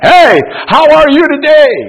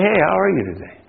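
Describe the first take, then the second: First: It is said loudly, like shouting to a crowd. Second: It is said at a normal, conversational volume.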